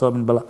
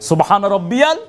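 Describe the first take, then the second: First: The words are mumbled and slurred together. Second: Each syllable is pronounced fully and distinctly. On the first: The speaker calls it wrong. "এটা সবিন বালা না।" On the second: The speaker calls it right. "স্পষ্ট করে বলেন"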